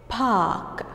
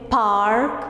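First: The R sound after the vowel is not pronounced. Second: The R sound after the vowel is pronounced. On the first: This is the British English way. The speaker calls it right. "we don't say R sound when it's followed, when it comes after a vowel" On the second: This is the American English way. The speaker calls it wrong. "Don't say park, it's American English"

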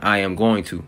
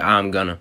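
First: Every word is said in full. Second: The phrase is partly shortened into two syllables. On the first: This is the full form. "as in I am going to" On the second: This is the general way of saying it. "y'all say I'm gonna"

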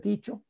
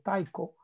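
First: The name is said with Spanish pronunciation. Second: The name is said with English pronunciation. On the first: "en castellano yo hablo de Tycho" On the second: "En inglés hablan de Tycho"

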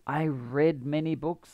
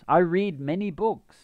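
First: Read has a short e vowel, like red. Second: Read has a long ee vowel, like reed. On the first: The reading happened in the past. "Past tense. ... even though it sounds like it" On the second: The reading happens regularly now.

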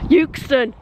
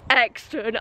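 First: The first syllable is said with a U sound. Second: The first syllable is said without a U sound. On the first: The speaker calls it right. "It's got a U in it, and I'm pronouncing it" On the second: The speaker calls it wrong. "You don't need to comment saying it's Exton"

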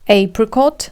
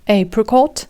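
First: It is said in a British accent. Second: The same.

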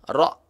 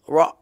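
First: The r has a light trill. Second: The r has no trill. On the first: The speaker calls it right. "Takrir sedikit saja getaran" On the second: The speaker calls it wrong. "jangan ra"

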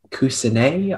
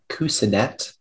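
First: The word ends with a 'nay' sound and no final t. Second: The word ends with a 'net' sound and a final t. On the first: "the word is kusanay" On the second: "also kusanet"

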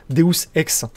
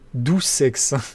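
First: It is pronounced the Latin way, 'de-us ex'. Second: It sounds like the French words 'doux sexe'. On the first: "si on le prononce en latin" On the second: "Je crois que ça se tit doux sexe"

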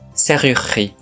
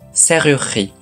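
First: The middle vowel is dropped. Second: The middle vowel is dropped.

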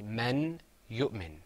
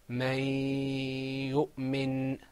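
First: The n of the first word is clearly pronounced. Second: The n merges into the following y sound. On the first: "it ends with a noon, men... So you say men yu'min" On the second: "That noon in men disappeared... I made another sound"

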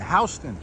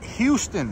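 First: It uses the pronunciation typical of New Yorkers. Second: It uses the pronunciation typical of tourists. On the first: The speaker is a local New Yorker. The speaker calls it right. "That's how we pronounce it here in New York" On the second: The speaker is an outsider to New York. The speaker calls it wrong. "Not Houston"

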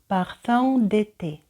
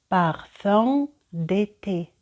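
First: The phrase is said faster. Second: The phrase is said slowly. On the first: "за другим разом я роблю це швидше" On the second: "Перший раз я читаю повільно"

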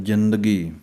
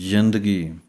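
The two takes are said the same way.

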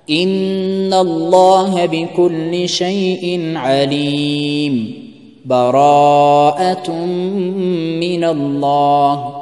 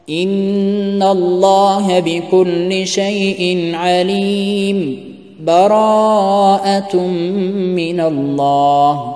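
First: There is a full stop between the phrases. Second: There is a brief pause between the phrases.

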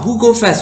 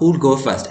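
First: The 'll after who is dropped entirely. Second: The 'll after who is clearly pronounced.

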